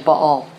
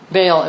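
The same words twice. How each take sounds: First: The name has its Hebrew pronunciation. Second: The name has an anglicized English pronunciation. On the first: The speaker calls it right. "The pronunciation in Hebrew is actually Baal" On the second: The speaker calls it wrong. "Baal is simply an English perversion of that"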